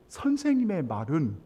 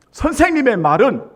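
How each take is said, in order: First: Said in the usual way. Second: 선생님의 hit higher and louder; 선생님의 말은 said loud and rising; stress on 선생님의. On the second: Shown as a demonstration. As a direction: lean hard on 선생님의 from the pulpit.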